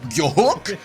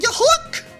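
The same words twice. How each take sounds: First: It is a deep voice resonating from the chest. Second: It is a higher, thinner voice from the throat. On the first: The speaker calls it right. "I want you to like flex your pecs" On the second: The speaker calls it wrong. "You're you're doing it up here"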